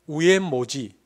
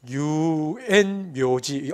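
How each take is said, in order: First: It is said u-en-mo-ji without 'y' sounds. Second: It is said yu-en-myo-ji with a 'myo' syllable. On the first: The speaker calls it wrong. "경상도 사람 그냥 시키면 우엔모지" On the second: The speaker calls it right. "유엔묘지 어렵습니다"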